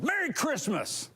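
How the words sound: It is said in a mean, combative tone.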